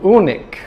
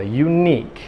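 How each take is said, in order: First: The stress falls on the first syllable. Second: The stress falls on the second syllable. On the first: The speaker calls it wrong. "acaba falando unique ou alguma coisa assim" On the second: The speaker calls it right. "com a sílaba tônica segunda"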